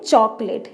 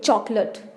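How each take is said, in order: First: The last syllable sounds like 'late'. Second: The last syllable sounds like 'lut'. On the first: The speaker calls it wrong. "लेकिन चॉकलेट इसकी गलत pronunciation है" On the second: The speaker calls it right. "पहले हम बोलेंगे चौक, आगे लट बोलेंगे, लेट नहीं बोलेंगे"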